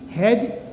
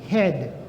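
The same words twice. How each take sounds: First: The final d is released strongly. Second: The final d is soft and barely heard. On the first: The speaker calls it wrong. "Você não fala had" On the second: The speaker calls it right. "O D é bem sutil, mas você pronuncia"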